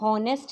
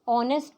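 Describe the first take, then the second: First: The word starts with an audible h sound. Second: The word starts directly with a vowel sound. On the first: The speaker calls it wrong. "हम हॉनेस्ट नहीं पढ़ते" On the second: The speaker calls it right. "ऑनेस्ट पढ़ते हैं, H silent होता है"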